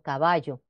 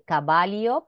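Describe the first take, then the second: First: The ll is pronounced like 'y'. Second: The ll is pronounced like 'li'. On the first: The speaker calls it right. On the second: The speaker calls it wrong.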